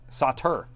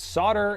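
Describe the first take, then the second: First: The word is said like 'sotter'. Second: The word is said the North American way. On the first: "it's S O T T E R" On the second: "It's solder in the U S and Canada"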